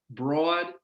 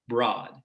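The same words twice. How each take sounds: First: "broad" with a raised "aw"; New York raised vowel. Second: "broad" with an open, low vowel; own dialect pronunciation. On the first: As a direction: draw "broad" out as "braw-d". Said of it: "this vowel is raised". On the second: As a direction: lower Midwest "broad", close to "brahd". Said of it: "Hopefully you can hear that difference". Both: Shown as a demonstration.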